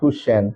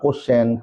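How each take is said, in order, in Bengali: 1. শব্দটি টানা 'kuye' ধ্বনি দিয়ে শুরু হয়। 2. শব্দটি সাধারণ 'ko' ধ্বনি দিয়ে শুরু হয়। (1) "ভুল উচ্চারণ করে থাকি" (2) "আমরা অনেকে বলি যে কোশ্চেন"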